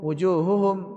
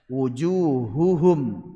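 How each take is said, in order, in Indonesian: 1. Bunyi h-nya kabur dan tidak jelas. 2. Bunyi h-nya terdengar jelas.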